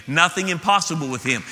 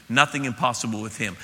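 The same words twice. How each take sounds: First: Rising preacher's insistence on NOTHING; building emphasis. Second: Said in the usual way. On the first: Shown as a demonstration. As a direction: lean into NOTHING and lift the whole line. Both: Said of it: "There's nothing impossible with him".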